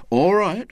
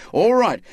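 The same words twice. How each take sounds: First: A firmer, louder, higher all right; defiant. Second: Louder, higher all right, falling hard; defiant outburst. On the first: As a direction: push back at the others. William insists, defiant. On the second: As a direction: slam the decision down. William insists again, harder. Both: Acted.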